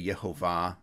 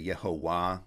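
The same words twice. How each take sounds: First: The middle consonant is a V sound. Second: The middle consonant is a W sound. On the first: "you would say Yehovah" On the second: "in classical Hebrew pronunciation, that Vav was originally a W"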